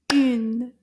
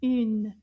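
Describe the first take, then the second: First: "Une" as one loud, punched beat; counted syllable. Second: Said in the usual way. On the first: Shown as a demonstration. Teacher counts syllables with class, "Une" punched as one beat. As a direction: clap out "Une" as a single strong syllable. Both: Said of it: "combien de syllabes in the word".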